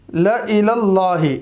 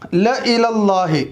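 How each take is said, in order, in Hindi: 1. पहला स्वर छोटा है। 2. पहला स्वर छोटा है।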